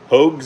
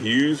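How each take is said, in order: First: The name has an 'o' vowel, like 'Hogs'. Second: The name has an 'oo' vowel, like 'Hughes'. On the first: The speaker calls it right. "but it's Hogs" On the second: The speaker calls it wrong. "It's like I say Hughes fur"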